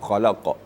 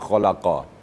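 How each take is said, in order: First: The word ends on a clearly bounced q sound. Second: The word ends with a short final vowel. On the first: The reader stops at the end of the verse. "kerana kita berhenti maka dibaca" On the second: This is the original form in continuous reading. "asalkan khalaqa"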